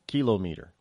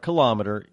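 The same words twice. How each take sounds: First: The 'meter' part is said as a full word. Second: The 'meter' part is blended into the word. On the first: The speaker calls it right. "Because the whole term is meter" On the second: The speaker calls it wrong. "It's not a kilometer"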